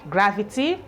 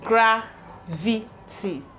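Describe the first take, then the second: First: The syllables are joined in one smooth word. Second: The syllables are separated by short pauses. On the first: "Put together" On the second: "let's try pronouncing them the way I just splitted it"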